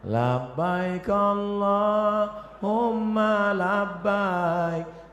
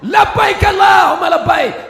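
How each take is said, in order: First: It is said softly and gently. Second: It is said loudly and forcefully.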